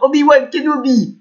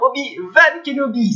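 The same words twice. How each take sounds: First: Obi-Wan starts its second part with a W sound. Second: Obi-Wan starts its second part with a V sound.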